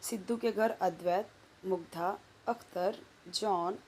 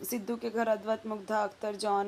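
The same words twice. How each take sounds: First: Short pauses come between the names. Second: The names run together without pauses. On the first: The speaker calls it right. "जहाँ पे comma आया वहाँ comma मैंने रुक रुक के पढ़ा" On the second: The speaker calls it wrong. "मैंने ना एक सटा के नहीं पढ़ा"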